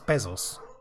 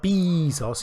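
First: The first vowel is not a long 'ee' sound. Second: The first vowel is a long 'ee' sound. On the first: The speaker calls it right. "It's Bezos" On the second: The speaker calls it wrong. "It's not a double E, is it? So it's not a B. It's not Bezos"

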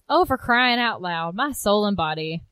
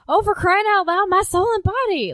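First: It is said calmly at normal speed. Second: It is said loudly, fast and upset.

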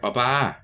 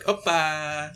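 First: It is said plainly, like calling someone over. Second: It is said in a cute, sweet way.

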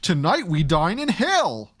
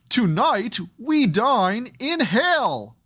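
First: It is said smoothly, without clipped breaks. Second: It is said in clipped, staccato bursts.

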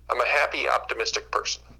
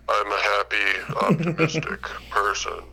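First: It sounds sincere and cheerful. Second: It sounds flat and unconvincing.

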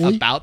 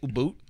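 First: The word is said with a general American vowel. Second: The word is said with a Canadian-style vowel. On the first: "instead of about" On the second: "the slight Canadian accents that they have"

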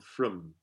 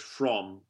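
First: The word has a reduced, weak vowel. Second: The word has a full, clear vowel. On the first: "The a vowel of from can change" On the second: "in British English, from can become from"

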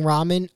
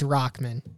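First: The name is said without a K sound. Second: The name is said with a K sound. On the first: "I kept saying Rahman" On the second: "I don't know where they get the K sound from"

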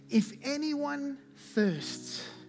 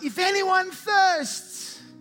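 First: It is read in a plain, calm voice. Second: It is cried out in a raised voice.

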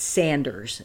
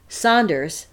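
First: The first vowel sounds like the vowel in 'sand'. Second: The first vowel sounds like the vowel in 'saw'. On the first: The speaker calls it right. "it's Sanders. It's S-A-N-D-E-R" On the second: The speaker calls it wrong. "I shouldn't say Saunders"

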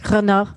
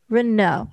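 First: The name is said with a French accent. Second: The name is said with an American accent.

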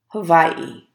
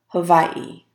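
Both takes have the same delivery.

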